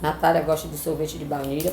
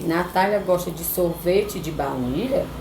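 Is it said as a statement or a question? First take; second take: statement; question. First: It is said as a plain statement. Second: It is said as a question.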